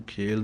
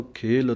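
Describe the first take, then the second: First: ਖੇਲ said quick and careless; a rushed ਖੇਲ; wrong pronunciation. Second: ਖੇਲ said slowly with a full aspirated kh; correct pronunciation. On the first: Teacher showing students the mistake, a rushed ਖੇਲ. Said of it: "ਨਹੀਂ ਕਹਿਣਾ". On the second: Teacher showing students the right way, ਖੇਲ with a breathy kh. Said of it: "ਖੇਲ ਪੜ੍ਹਨਾ ਹੈ ਇਸ ਢੰਗ ਦੇ ਨਾਲ". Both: Shown as a demonstration.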